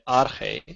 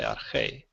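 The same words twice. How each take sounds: First: The stress is on the first syllable. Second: The stress is on the last syllable. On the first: The speaker calls it wrong. "I'm not going to say arche" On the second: The speaker calls it right. "I'm going to say arche"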